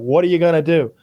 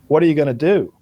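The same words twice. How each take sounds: First: It is a casual, shrugging everyday remark. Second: It is a quiet, understated, pointed challenge.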